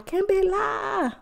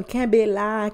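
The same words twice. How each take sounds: First: Sing-song the catchphrase back up high; high drawn-out repeat. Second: Said in the usual way. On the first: Acted. Podcaster urging listeners, stretched high and slow.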